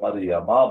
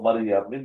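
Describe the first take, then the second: First: The word ends with an '-a' sound. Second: The word ends with an '-in' sound. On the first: The speaker calls it right. "मरियमा बोलते हैं" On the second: The speaker calls it wrong. "मरियम मिन बोलने के बजाय"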